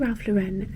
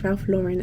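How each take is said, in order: First: The name is said with a French-style pronunciation. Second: The name is said with an American pronunciation. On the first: The speaker calls it wrong. "I always say Ralph Lauren and I actually think that's wrong" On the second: The speaker calls it right. "It's Ralph Lauren, isn't it? Because he's American, not French"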